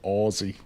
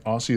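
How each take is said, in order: First: The middle consonant is a buzzing Z sound. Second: The middle consonant is a hissing S sound. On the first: The speaker calls it right. "Aussie with a Z" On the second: The speaker calls it wrong. "not an S"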